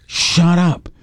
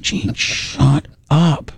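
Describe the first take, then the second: First: Said in the usual way. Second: Very slow, stretched "Gene, shut up"; slow hushing. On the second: Retold or imitated. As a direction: drag each word out to hush him.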